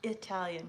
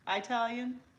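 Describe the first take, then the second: First: The first syllable sounds like 'ih'. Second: The first syllable sounds like 'eye'. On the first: The speaker calls it right. "it's called Italian" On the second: The speaker calls it wrong. "I used to call it Italian"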